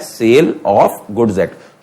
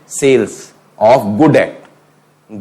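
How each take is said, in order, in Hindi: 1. s ध्वनि तीसरे शब्द के अंत में आती है। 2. s ध्वनि पहले शब्द के अंत में आती है। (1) "तो सही क्या है" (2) "गलत प्रोनाउंस होते हैं ये"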